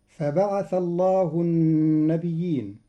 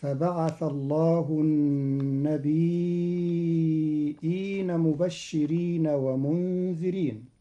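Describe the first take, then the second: First: "النبيين" with doubled ya; verse read in standard reading; recited verse. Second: "النبيين" with hamza after a light ya; Qalun reading. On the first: Teacher reciting the verse before explaining "النبيين". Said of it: "قرأ قالون كلمة النبيين". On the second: Teacher demonstrating Qalun's hamzated "النبيين". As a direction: say "النبيين" as an-nabi'in. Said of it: "فتصير هكذا". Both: Shown as a demonstration.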